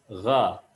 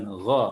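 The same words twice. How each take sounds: First: "gha" with gargled GH and open A. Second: "gha" rounded into "gho"; pouted gha. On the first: Teacher correcting the vowel, "gha" with open A. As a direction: keep lips unrounded on "gha". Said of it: "bukan gha, tapi gha". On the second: Teacher showing what to avoid, "gha" with O-like vowel. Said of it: "nggak boleh monyong". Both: Shown as a demonstration.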